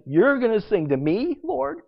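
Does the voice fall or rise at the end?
rises. The voice rises at the end, like a question. It is asked in wonder or disbelief.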